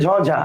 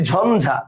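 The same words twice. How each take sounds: First: ঝঝা said without a clear n before the second jh; literal spelling sound. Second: ঝঞ্ঝা said "jhonjha", with a clear n; n sound. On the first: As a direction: say ঝঝা as written with ইয়, no dental n. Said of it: "আমি কিন্তু বলি না". (ঝঝা, মাঝে স্পষ্ট ন ছাড়া উচ্চারণ) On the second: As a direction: say ঝঞ্ঝা with n before the second jh. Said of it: "ইয় উচ্চারণটা হয়ে গেছে কি ন". (ঝঞ্ঝা-কে ন দিয়ে "ঝন্ঝা" উচ্চারণ) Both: Shown as a demonstration.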